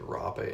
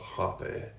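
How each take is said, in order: First: It is said with an American accent. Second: It is said with a non-American accent.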